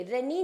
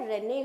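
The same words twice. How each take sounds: First: रेनी with a long ee at the end; the wrong रेनी, ending in ee. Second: रेने ending in a short e; the correct रेने, ren-eh; right way. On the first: Teacher showing students the mistaken रेनी. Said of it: "रेनी नहीं होता है". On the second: Teacher correcting students with रेने. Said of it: "रेने होता है". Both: Shown as a demonstration.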